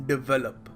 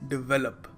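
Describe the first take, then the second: Both takes have the same delivery.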